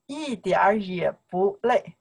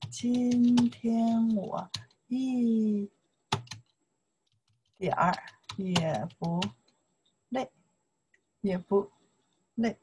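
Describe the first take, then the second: First: Said in the usual way. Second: Very slow, each syllable apart; slow syllable drill. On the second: Shown as a demonstration. Teacher drilling a sentence slowly for students. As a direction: stretch it out word by word. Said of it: "You can say".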